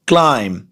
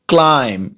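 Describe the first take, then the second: No difference in how they are said.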